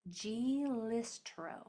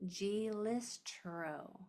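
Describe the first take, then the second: Both takes have the same delivery.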